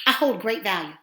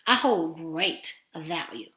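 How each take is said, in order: First: Said in the usual way. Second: "I hold great value" slow, drawn out on GREAT; deliberate emphasis. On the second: Shown as a demonstration. Coach models a mirror affirmation, deliberate emphasis.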